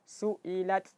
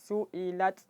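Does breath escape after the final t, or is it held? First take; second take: escapes; escapes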